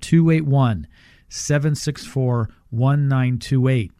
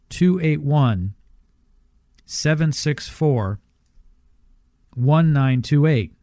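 First: The number is read at a faster pace. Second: The number is read at a slower pace.

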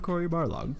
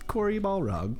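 First: The surname is said as Barlog, r before l. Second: The surname is said as Balrog, l before r. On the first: The speaker calls it right. "instead of Corey Barlog" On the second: The speaker calls it wrong. "people in gaming journalism say Corey Balrog"

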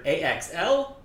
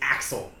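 First: Each letter is named separately. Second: It is said as one whole word. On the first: "pronounce this by its letters" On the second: "by what the letters sound like"

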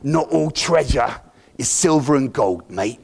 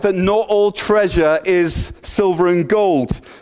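First: It is said in a Jack Sparrow impression. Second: It is said in his own normal voice.

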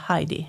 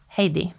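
First: The name is said the German way. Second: The name is said the Swedish way. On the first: This is how people said it while she lived in Germany. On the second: This is how she says her own name.

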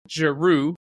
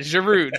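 First: The final d is left silent. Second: The final d is pronounced. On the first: The speaker calls it right. "Is that better?" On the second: The speaker calls it wrong. "We do in America"

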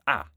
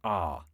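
First: The vowel is short and clipped. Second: The vowel is long and drawn out. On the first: The speaker sounds northern and less posh. "the second speaker had a short vowel, something like ah" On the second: The speaker sounds southern and a little posh. "The first speaker had a longer vowel, a bit like ah"

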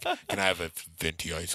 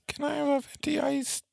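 First: The voice is at a normal pitch. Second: The voice is raised to a high pitch. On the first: "I sound so normal" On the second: "it's been so like high pitched"

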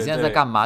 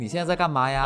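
First: It is said in a flat, unhappy tone. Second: It is said in a happy, cheerful tone.

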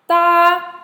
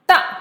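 First: The pitch stays high and level. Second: The pitch falls sharply from high to low.

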